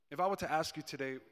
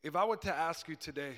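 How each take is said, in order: Both takes have the same delivery.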